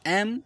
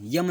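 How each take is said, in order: First: The letter name starts with a plain vowel. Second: The letter name starts with a y sound. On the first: The speaker calls it right. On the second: The speaker calls it wrong.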